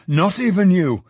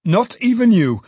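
First: Jolly man echoing himself a little less loudly; jolly repeat, a bit less loud. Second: High and loud, leaning on even; jolly man crying out much higher and louder. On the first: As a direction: repeat it merrily, easing off. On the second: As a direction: boom it out merrily, stressing even. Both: A narrator's reading. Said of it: "a generous and jolly voice".

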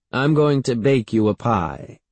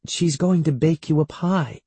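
First: Lightly voiced great-aunt; great-aunt announcing. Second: Higher-pitched, lightly voiced mother; coaxing mother. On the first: Great-aunt promising the boy a pie, lightly in character. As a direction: declare it close to the usual pitch. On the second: Mother coaxing her upset son, higher and reassuring. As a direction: offer it as encouragement. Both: A narrator's reading.

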